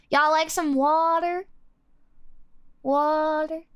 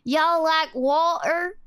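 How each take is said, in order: First: "water" with the T softened to a D. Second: Slow Southern-British blend with a T in water; Southern-British accent. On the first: Streamer showing the accent, "water" with D for T. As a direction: say "water" as "wader" with a rounded vowel. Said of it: "it's like a D". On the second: Streamer testing the blend, slow Southern-British accent. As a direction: drawl it, keeping the T in water. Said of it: "Why does it sound like that?". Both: Shown as a demonstration.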